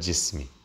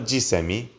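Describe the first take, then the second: First: No vowel is heard between s and m. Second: An extra vowel is heard between s and m. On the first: The speaker calls it right. "but jismi" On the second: The speaker calls it wrong. "Not jisemi"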